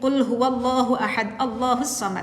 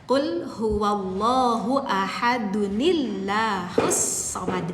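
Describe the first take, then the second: First: Ahad stops, then Allah begins without a 'nil' sound. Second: Ahad is joined to Allah with a 'nil' sound. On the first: The speaker calls it wrong. "itu salah ya" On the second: The speaker calls it right. "Jadi bacanya seperti itu kakak"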